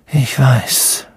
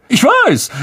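First: Said in the usual way. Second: High, loud smug agreement; boastful Lockhart. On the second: Acted. Lockhart brags to Harry, high and smug. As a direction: preen over your fame.

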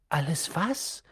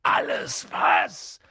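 First: Said in the usual way. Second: Slow, low rough roar of a giant; drawn-out growling bellow; thundering. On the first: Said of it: "fragte Harry". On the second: A narrator's reading. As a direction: thunder it back in disbelief. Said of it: "donnerte Hagrid".

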